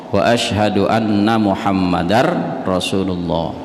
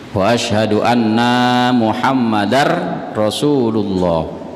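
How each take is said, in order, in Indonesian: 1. Vokal akhir pada 'anna' itu pendek. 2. Vokal akhir pada 'anna' itu panjang.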